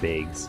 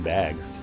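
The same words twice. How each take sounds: First: The vowel is a long Midwestern A. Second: The vowel is a plain, standard short A.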